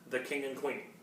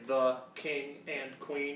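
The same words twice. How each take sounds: First: The words are read smoothly as one phrase. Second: Each word is read separately with breaks.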